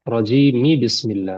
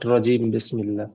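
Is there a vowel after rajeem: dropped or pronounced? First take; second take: pronounced; dropped. First: An i vowel links rajeem to bismillah. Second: Rajeem ends without a vowel before bismillah. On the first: The speaker calls it right. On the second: The speaker calls it wrong. "Not"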